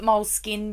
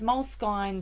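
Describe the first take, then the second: First: It is said as the plain words mole skin. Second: It is not said as the plain words mole skin. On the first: "I call it mole skin" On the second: "moleskine just sounds to me ridiculous"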